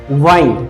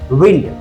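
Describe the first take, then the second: First: The vowel is long, rhyming with kind. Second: The vowel is short, rhyming with pinned. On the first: It is used as a verb, meaning to turn around. "As a verb क्या पढ़ते हैं? वाइंड पढ़ते हैं" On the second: It is used as a noun, meaning moving air. "As a noun हम लोग विंड पढ़ते हैं"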